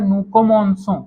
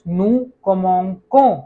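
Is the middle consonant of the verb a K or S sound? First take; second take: S sound; K sound. First: The middle consonant is a soft s sound. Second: The middle consonant is a hard k sound. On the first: The speaker calls it right. "स का साउंड निकलता है" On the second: The speaker calls it wrong. "क का"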